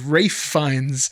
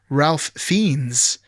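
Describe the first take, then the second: First: The first name rhymes with safe, no L. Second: The first name is said with an L sound. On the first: The speaker calls it right. "it turns out it was Rafe Fiennes" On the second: The speaker calls it wrong. "I thought it was Ralph Fiennes"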